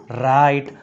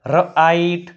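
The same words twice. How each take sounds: First: Said in the usual way. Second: ર આઈટ split after the consonant; teacher breaking ર આઈટ into parts; sounded out. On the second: Shown as a demonstration. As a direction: say ર alone, then આઈટ. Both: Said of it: "લખાય અથવા વંચાય છે".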